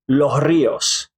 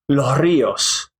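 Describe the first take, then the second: No difference in how they are said.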